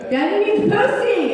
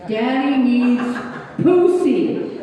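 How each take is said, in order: First: Put-on high, loud kid yelling the demand; frustrated child yell. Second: Grandson's demand growing louder and higher; building mock yell. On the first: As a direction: shout it like a furious little boy. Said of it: "he was getting mad". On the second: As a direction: insist harder each time like a frustrated child. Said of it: "he kept saying".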